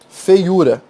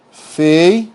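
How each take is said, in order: First: Said in the usual way. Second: "Feiura" split into drawn-out chunks, fei, u; syllable by syllable. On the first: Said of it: "Olha a outra palavra". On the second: Shown as a demonstration. Teacher dividing a word for students, syllable by syllable. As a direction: break "Feiura" apart with clear pauses. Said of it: "Aqui, ó".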